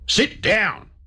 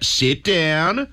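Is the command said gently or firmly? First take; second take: firmly; gently. First: It is said as a firm command. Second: It is said in a soft, coaxing way.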